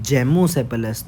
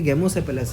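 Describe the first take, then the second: First: The word begins with a J sound. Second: The word begins with a hard G sound. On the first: "आप इसको अगर ऐसे pronounce कर लो कि जेमोसेपेलस" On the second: "इसको लिखा तो ये गेमोसेपेलस है"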